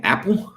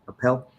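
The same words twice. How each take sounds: First: Apple, stressed on the first syllable, rising; questioning pronunciation. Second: Appel as "uh-PELL", stressed on the end; questioning pronunciation. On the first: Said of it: "How do you pronounce that name?". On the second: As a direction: try Appel with a weak first vowel and strong "PELL". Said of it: "Is that how you pronounce that?". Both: Shown as a demonstration.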